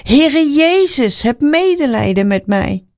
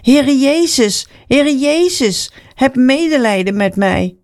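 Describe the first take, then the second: First: High, stretched, urgent plea in a storyteller's voice; more insistent call. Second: Pleading call. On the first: Blind man ignores the scolding crowd, calling insistently for mercy. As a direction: draw the name out high, then plead. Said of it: "Hij riep nog veel harder". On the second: Blind man calls to Jesus for mercy, pleading call. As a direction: stretch the name in a high calling tone. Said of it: "begon Bartimaeus te roepen". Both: A narrator's reading.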